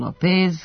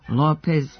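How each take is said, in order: First: The stress is on the second syllable. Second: The stress is on the first syllable. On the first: This is the habitual local way of saying it. The speaker calls it wrong. "godinama izgovaramo" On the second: This follows the original Spanish stress. The speaker calls it right.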